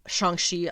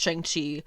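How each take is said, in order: First: The name is said with Chinese-style vowels. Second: The name is said with Americanized vowels. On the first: The speaker calls it right. "I keep correcting myself on that because I want to be saying it right" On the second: The speaker calls it wrong. "the Americanized version of it"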